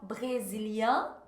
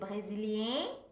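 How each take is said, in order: First: It is said in a general French accent. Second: It is said in a Swiss or Quebec accent. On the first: "em geral" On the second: "dependendo do sotaque, então na Suíça, no Quebec vai ser brasilien"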